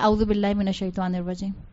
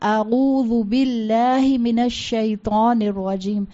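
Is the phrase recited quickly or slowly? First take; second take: quickly; slowly. First: The phrase is recited quickly without pausing. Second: The phrase is recited slowly, letter by letter. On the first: It is said without time to reflect. The speaker calls it wrong. "یہ تلاوت نہیں ہے" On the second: It is said with time to reflect. The speaker calls it right. "ایک ایک حرف کو ٹھہر ٹھہر کر پروناؤنس کیا"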